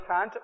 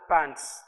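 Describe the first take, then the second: First: The word begins with an f sound. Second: The word begins with a p sound. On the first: The speaker calls it wrong. "That's not a fant" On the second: The speaker calls it right.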